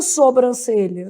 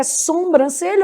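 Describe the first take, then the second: First: Sobrancelha with a clean "so"; no M sound: so-brancelha; oral first syllable. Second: Sobrancelha said as "sombrancelha"; nasal first syllable. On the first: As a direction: say sobrancelha starting on plain "so". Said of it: "certo é sobrancelha". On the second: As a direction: add an M sound: SOM-brancelha. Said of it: "o certo é sobrancelha ou". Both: Shown as a demonstration.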